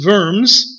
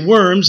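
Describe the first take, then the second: First: The word begins with a V sound. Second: The word begins with a W sound. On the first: This is how the locals say it. "They pronounce the W as a V" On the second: This is how English speakers say it. "We would say Worms"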